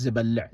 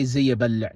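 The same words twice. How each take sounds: First: Zabal'a with z straight into bal, no ya; ya dropped. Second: Ziyabal'a with the extra ya syllable left in; unelided ya. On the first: Teacher correcting for learners, ya-less zabal'a. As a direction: drop the ya and hold the L in zabal'a. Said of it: "No, just zabal'a". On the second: Teacher showing the form not said, ya kept in ziyabal'a. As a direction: keep a separate ya after the z in ziyabal'a. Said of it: "we don't say ziyabal'a". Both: Shown as a demonstration.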